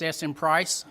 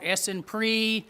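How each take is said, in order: First: The last syllable sounds like 'price'. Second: The last syllable sounds like 'pree'. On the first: The speaker calls it right. "price like the price tag" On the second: The speaker calls it wrong. "I've heard it called Essenpree"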